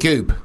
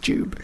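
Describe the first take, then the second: First: The name begins with a hard G sound. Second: The name begins with a J sound. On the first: This is how other people mispronounce the name. The speaker calls it wrong. "they call me Goob. Oi, Goob" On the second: This is how the owner says the name. The speaker calls it right. "it's Jube"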